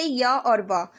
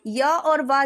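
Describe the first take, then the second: First: "य और व" said slowly, each sound drawn out; slow demonstration. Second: Said in the usual way. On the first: Shown as a demonstration. Teacher slowly sounds out "य और व" for the students. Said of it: "य और व जब हम बोलेंगे". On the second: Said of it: "जैसे य और व".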